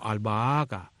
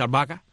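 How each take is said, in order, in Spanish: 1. Las dos vocales del medio se pronuncian por separado. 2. Las dos vocales del medio se fusionan en una sola. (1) "a mí me gusta decir" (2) "hay quien dice albahaca"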